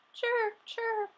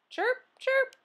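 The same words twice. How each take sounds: First: Cricket chirp. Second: Very high cricket chirps. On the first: A narrator's reading. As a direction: chirp happily into the night. Happy cricket noise at night. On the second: Acted. Classroom full of pet noises.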